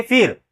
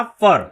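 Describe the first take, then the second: First: फिर with a short i vowel before the r; फिर, vowel as in "fit"; expected wrong reading. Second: फर with an "uh" vowel, like "fur"; फर, neutral vowel before the r; correct pronunciation. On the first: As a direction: say फिर as "fir" with an "ih" sound. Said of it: "ऐसे पढ़ना चाहिए फिर". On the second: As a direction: say फर without any i sound. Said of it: "इसका pronunciation क्या हो जाएगा". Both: Shown as a demonstration.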